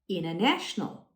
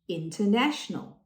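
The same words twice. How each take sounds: First: The first T is dropped after the N. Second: The first T is clearly pronounced. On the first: "many Americans would eliminate the T" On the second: "If a British person said that, you would probably hear the first T"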